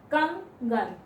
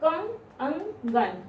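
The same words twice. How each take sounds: First: Said in the usual way. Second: कंगन stretched very slowly, the अंग sound held apart; drawn-out pronunciation. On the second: Shown as a demonstration. Teacher showing students that कंगन has a separate अंग, drawn out. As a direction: stretch कंगन so the nasal अंग stands out on its own. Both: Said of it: "जब आप कंगन बोलेंगे".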